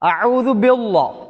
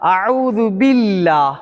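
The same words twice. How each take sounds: First: The L in 'billah' is heavy and full. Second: The L in 'billah' is light and thin. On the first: The speaker calls it wrong. "இதை வந்து வல்லினமாக ஓதுவாங்க" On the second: The speaker calls it right. "அஊது பில்லாவை மெல்லினமாக நான் வந்து என்ன உச்சரித்தேன்"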